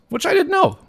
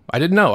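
First: Didn't jumps way up high; stress on didn't. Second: Said in the usual way. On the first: Real, not acted. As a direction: hit didn't with a high pitch leap.

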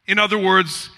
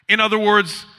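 No difference in how they are said.

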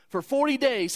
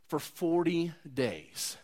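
First: For forty days, higher and louder with forty punched; emphatic repeat. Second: Slow, soft and stretched out; drawn-out emphasis. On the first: Preacher hammering home the long wait, forceful and raised. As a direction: hit forty hard and high. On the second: Preacher dwelling on the long wait, slow and hushed. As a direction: let the words linger quietly. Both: Acted.

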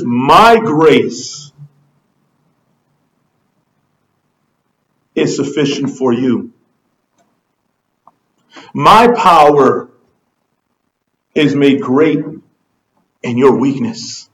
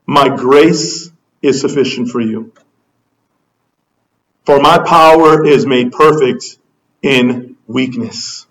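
First: "My" leaned on in a low voice, with long pauses between phrases; stress on MY. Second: Low, measured voice of God; God's simple answer. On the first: Shown as a demonstration. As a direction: personalize it by weighting "My", phrase by phrase. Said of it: "You notice how he personalizes that?". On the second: Acted. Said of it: "And his answer is simple".

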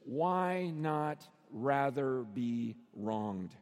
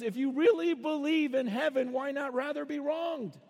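First: Low, word-by-word delivery; very slow, deliberate and grave; slow, weighty question. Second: Higher, urgent pleading question; raised, insistent appeal; impassioned challenge. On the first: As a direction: space out each word solemnly. Solemnly sets out five key words. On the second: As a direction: press the argument in one driving run. Acts out Paul's heated challenge. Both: Acted.

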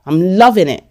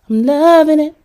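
First: Said in the usual way. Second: Exaggerated glee. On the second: Refusing to calm down, gleefully high on "loving". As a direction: stretch "loving" in a high gushing pitch.

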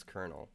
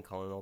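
First: "Colonel" said like kernel; correct colonel pronunciation. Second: "Colonel" mimicked as COL-uh-nel; imitated mispronunciation. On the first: Shown as a demonstration. Host proving the point, "Colonel" said KER-nul. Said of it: "All right, watch". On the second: Host quoting co-host's mistake, "Colonel" mimicked as COL-uh-nel. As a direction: say "Colonel" with three syllables, L sounded. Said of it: "you've been saying Colonel the whole time".

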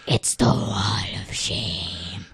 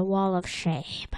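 First: Slow, drawn-out stage whisper; ominous whisper. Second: Said in the usual way. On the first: Acted. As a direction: whisper it slowly, like a dread announcement. Ominous whispered repeat of the phrase.

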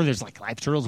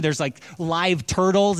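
First: Aghast sister. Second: Said in the usual way. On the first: Retold or imitated. Sisters staring at live turtles, lowered, aghast disbelief.

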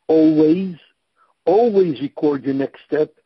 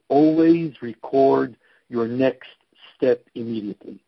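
First: Always punched louder and rising at the start; stress on always. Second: Said in the usual way. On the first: Shown as a demonstration. Coach stressing the first word of his rule, loud emphasis. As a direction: hit the word always hard, then record your next step. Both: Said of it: "emphasizing the first and last word".

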